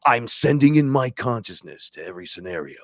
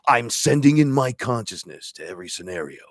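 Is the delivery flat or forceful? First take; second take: forceful; forceful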